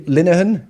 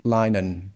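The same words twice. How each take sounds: First: "Linehan" as LIN-uh-han; "Linehan" with first syllable like "lin"; trying a pronunciation. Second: "Linehan" as LINE-un; "Linehan" with a long i and silent h; alternative pronunciation. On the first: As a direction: say "Linehan" in three syllables with a short i. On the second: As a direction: say "Linehan" in two syllables, like "line-un". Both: Shown as a demonstration. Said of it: "Is it Linehan or Linehan?".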